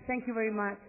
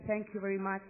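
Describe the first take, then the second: No difference in how they are said.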